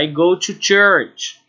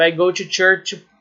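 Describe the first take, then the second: First: Slow model phrase. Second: Said in the usual way. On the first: Shown as a demonstration. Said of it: "ou seja". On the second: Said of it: "Por exemplo".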